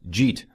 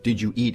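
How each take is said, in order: First: The words are squeezed into one short syllable. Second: Each word is said separately and in full.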